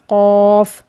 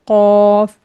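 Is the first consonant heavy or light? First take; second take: heavy; heavy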